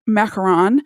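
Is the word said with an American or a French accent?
American. It is said with an American accent. The speaker calls it wrong. "I'm doing it with an American accent"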